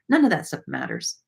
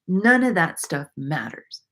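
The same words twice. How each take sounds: First: It is said fast. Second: It is said slowly.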